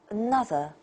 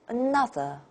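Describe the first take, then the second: No difference in how they are said.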